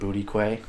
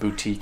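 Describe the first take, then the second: First: The word ends with a 'kway' sound. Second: The word ends with a 'teek' sound. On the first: The speaker calls it wrong. "he calls it Booty Quay" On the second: The speaker calls it right. "store called Boutique"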